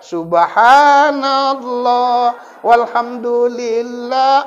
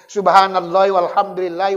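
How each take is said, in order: First: Subhanallah ends without a vowel before wal. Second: Subhanallahi ends in an i linked onward. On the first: The speaker calls it wrong. "jangan boleh dilakukan" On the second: The speaker calls it right.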